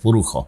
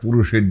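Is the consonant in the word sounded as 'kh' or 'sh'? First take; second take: kh; sh. First: The consonant is sounded as 'kh'. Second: The consonant is sounded as 'sh'. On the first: "এই খ উচ্চারণ হয়" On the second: "পুরুষের জায়গায়"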